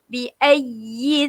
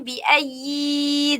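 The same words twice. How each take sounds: First: The final vowel of 'ayyi' is kept short. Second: The final vowel of 'ayyi' is drawn out long. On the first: The speaker calls it right. "Yi ni tak boleh panjang" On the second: The speaker calls it wrong. "Sebab kebiasaannya bi ayyi dzam"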